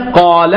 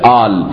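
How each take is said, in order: First: The word begins with a deep q sound. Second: The word begins with a glottal stop. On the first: This is the word as written. "کلمه قاله هست" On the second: This is how it is said in speech. "میشه آل"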